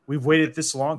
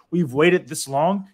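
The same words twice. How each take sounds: First: Said in the usual way. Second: Put-on slow, deliberate quote of a firm teen; quoting daughter. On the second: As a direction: draw it out like a teen laying down the law. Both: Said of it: "her exact words were".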